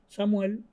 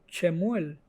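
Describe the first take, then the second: First: The name is pronounced the Spanish way. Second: The name is pronounced the Hebrew way. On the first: "En español" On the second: "en hebreo"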